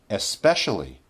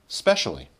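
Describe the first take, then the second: First: It is said in its full, careful form. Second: It is said in its most reduced form. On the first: "the most formal" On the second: "the least formal"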